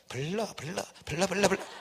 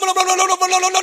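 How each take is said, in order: First: The syllables are said quietly and weakly. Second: The syllables are said loudly and energetically. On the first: The speaker calls it wrong. "안 돼" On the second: The speaker calls it right. "크게. 막"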